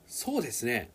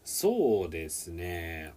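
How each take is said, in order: First: The phrase is said quickly and bouncily. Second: The phrase is said slowly and drawn out. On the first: The speaker agrees and shares the opinion. "if you say that really fast and really kind of, you know, jumpy" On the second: The speaker is pausing to think. "if you say slowly"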